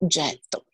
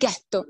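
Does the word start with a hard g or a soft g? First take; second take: soft g; hard g. First: The word starts with a soft g. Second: The word starts with a hard, guttural g. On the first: This is the original local word for foundry. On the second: This is how German-speaking newcomers said it.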